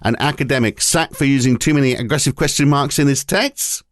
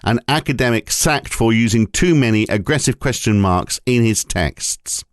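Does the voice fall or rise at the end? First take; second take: rise; fall. First: It is read as a question, rising. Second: It is read as a flat statement, falling.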